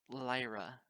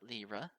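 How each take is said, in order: First: The name sounds like the word liar. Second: The name does not sound like liar. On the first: This is how its owner says the name. The speaker calls it right. "The other way sounds rude, like I'm almost saying the word liar" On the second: This is how someone else says the name. The speaker calls it wrong. "it's just the way you pronounce my name"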